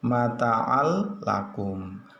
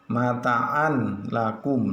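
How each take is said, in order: First: The n merges fully into the following l. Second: The n is pronounced clearly before the l. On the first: The speaker calls it right. "Yang betul adalah mata'al lakum" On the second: The speaker calls it wrong. "tidak boleh dibaca mata'an lakum, lah itu salah"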